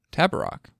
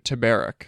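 First: Tabarrok said as TAB-uh-rock; checked pronunciation. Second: Tabarrok said as tuh-BERR-ick; mispronounced name. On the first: Shown as a demonstration. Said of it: "I think that's how you said it". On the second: Real, not acted. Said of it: "what is with these people and their weird names".

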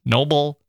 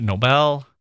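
First: Nobel rhyming with global; reduced second syllable. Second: Nobel with a clear BELL ending; stressed second syllable. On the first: Trying out the prize's name, Nobel said like noble. Tries the other pronunciation, rejects it. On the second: Trying out the prize's name, Nobel said as no-BELL. Corrects himself between two pronunciations. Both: Shown as a demonstration.

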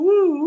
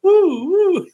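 First: High whooping woo; woo sound effect. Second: High loud whooping woo; woo sound effect. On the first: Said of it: "maybe a woo". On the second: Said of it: "I'll just do it myself". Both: Shown as a demonstration.

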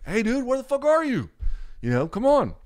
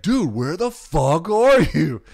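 First: High, raised mock calling-out; imitating an impatient friend on voicemail; mildly impatient voicemail. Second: Slow, very loud mock yell, pitched high; imitating a friend cursing down the phone; escalated angry voicemail. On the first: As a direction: nag the missing buddy, still half friendly. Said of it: "second one gets a little more like". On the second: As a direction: drag out each word in hammed-up outrage. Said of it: "And then the next one, it's like".

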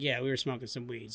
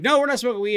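First: Low, soft, matter-of-fact confession; honest admission. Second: Quick, louder and higher, imitating a panicked friend; panicked denial. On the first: Retold or imitated. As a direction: own up quietly, in a lower voice. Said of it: "So I'm totally honest". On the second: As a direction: blurt a nervous retold denial. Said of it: "Dave is shaking like a leaf".

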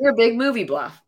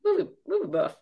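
First: "bluff" said with an l, as "bluhf"; "movie bluff" with a stray l before the u; slip of the tongue. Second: "buff" said cleanly as "buhf", no l; "movie buff" said right, with a laughing pitch lift; corrected word. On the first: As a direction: trip into saying "bluff" for "buff". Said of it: "buff, bluff". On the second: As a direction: land the fixed word "buff". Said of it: "Bluff, same thing". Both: Real, not acted.

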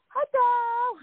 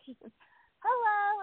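First: High, drawn-out greeting; imitated wife's hello. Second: Imitated unsure hello. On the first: Wife greets her on FaceTime, imitated high hello. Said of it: "his wife goes". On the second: She greets a wife she can't name, imitated unsure high hello. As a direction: return a high, uncertain hello. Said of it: "I'm thinking, What do I call her".

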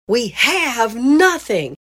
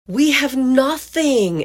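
First: "nothing" stressed, high and slow. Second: "We" stressed, high and slow. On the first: Mom repeating her complaint, stress on "nothing". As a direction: lean hard on "nothing", drawn out and high. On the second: Mom repeating her complaint, stress on "We". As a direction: lean hard on "We", drawn out and high. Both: Retold or imitated. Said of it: "kept putting emphasis in different words".

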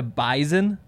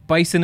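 First: "bison" said BY-zun. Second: "Bison" said BY-sun; hissed s in the middle of "Bison". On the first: Host citing North Dakota State's name, "bison" as BY-zun. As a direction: buzz the s in "bison" as a z. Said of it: "say it with a Z". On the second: Host showing the wrong way, "Bison" as BY-sun. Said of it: "Bison is wrong". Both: Shown as a demonstration.

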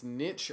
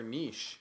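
First: "niche" as "nitch", short i and ch; first variant. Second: "niche" as "neesh", long vowel and sh; second variant. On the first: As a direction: say "niche" to rhyme with rich. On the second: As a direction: say "niche" to rhyme with leash. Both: Shown as a demonstration. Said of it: "It's niche or niche".

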